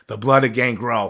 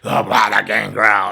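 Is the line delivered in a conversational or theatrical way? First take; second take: conversational; theatrical. First: It is said in a plain conversational voice. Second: It is said in an overdone theatrical voice. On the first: The speaker calls it right. "I should have just talked like" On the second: The speaker calls it wrong. "but I was like"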